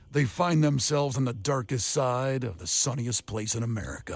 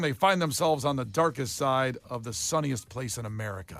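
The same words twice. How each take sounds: First: It is read in a deep, dramatic trailer voice. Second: It is read in an ordinary, undramatic voice. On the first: The speaker calls it right. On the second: The speaker calls it wrong.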